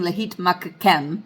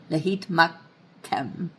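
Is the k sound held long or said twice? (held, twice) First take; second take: twice; held. First: The k sound is said twice as two syllables. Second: The k sound is held a little longer once. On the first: The speaker calls it wrong. "I'm not saying lahit makakem" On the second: The speaker calls it right. "I'm just kind of holding that kof a little bit longer"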